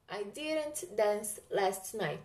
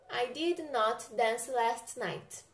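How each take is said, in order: First: Did and not are contracted into one word. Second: Did and not are said as two full words. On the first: "Mais a partícula not fica didn't" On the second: "na sua forma normal"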